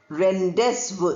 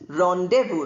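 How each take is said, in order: First: A Z sound is pronounced in the middle. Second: No Z sound is pronounced in the middle. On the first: The speaker calls it wrong. "We don't say rendezvous" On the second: The speaker calls it right. "We pronounce it as rendezvous"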